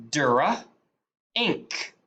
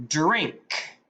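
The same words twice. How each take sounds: First: "Dura. Ink." as drink broken into dr and ink; sounded out. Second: Said in the usual way. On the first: Shown as a demonstration. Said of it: "go to sound 'em out". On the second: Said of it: "put them together".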